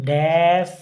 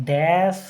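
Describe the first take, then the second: No difference in how they are said.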